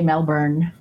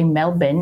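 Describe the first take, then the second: First: It is said with the R pronounced. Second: It is said without the R, Australian style.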